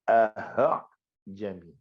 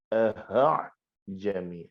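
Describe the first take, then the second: Both takes have the same delivery.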